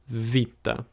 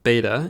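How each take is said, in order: First: It begins with a V sound. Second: It begins with a B sound. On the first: This is the Greek name of the letter. "it's pronounced more like the V in the word very" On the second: This is the English name of the letter. "we call it beta in English"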